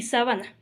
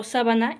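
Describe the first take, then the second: First: "sábana" said as sa-BA-na, middle syllable stressed. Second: "sábana" stressed on its first syllable, SÁ. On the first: Teacher contrasting two lookalike words, middle-syllable stress on "sábana". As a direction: move the beat in "sábana" to the second syllable, BA. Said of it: "la sabana en donde viven los leones". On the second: Teacher contrasting two lookalike words, first-syllable stress on "sábana". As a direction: say "sábana" with the beat on SÁ. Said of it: "palabras iguales, pero con diferentes significados". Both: Shown as a demonstration.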